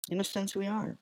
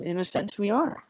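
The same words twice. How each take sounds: First: "in a sense, we are" repeated much softer, almost to himself; quiet repeat. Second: Said in the usual way. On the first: Shown as a demonstration. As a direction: drop the repeat to a hush.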